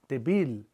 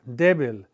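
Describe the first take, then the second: First: The stress is on the last syllable. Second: The stress is on the first syllable. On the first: This is what the usual rule would give. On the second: This is how the word breaks the rule.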